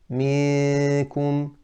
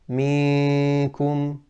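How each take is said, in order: First: The noon sound comes mainly from the mouth. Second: The noon sound comes mainly from the mouth.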